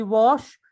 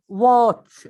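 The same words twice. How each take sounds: First: Wash, with sh in place of tch; learner's mistake wash for watch, sh ending; mispronounced "watch". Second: Said in the usual way. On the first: Shown as a demonstration. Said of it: "This is wrong". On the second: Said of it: "you may say wash".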